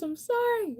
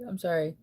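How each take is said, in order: First: Very high sorry pulled through a yawn; yawning apology. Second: Said in the usual way. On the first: Real, not acted. Streamer to chat, sorry stretched by a yawn. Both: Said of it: "yawns are contagious".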